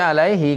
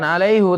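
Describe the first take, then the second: First: The word ends with a 'hee' sound. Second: The word ends with a 'hoo' sound. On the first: The speaker calls it right. "tapi alaihi karena ada ya" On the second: The speaker calls it wrong. "Bukan alaihu"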